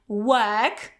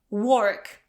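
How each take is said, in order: First: British "work" with a schwa-like vowel and no r; correct work. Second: "work" with an o vowel like "wok"; wrong work. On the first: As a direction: say "work" with a neutral vowel and drop the r. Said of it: "this is e". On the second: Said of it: "pronounce it as". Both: Shown as a demonstration.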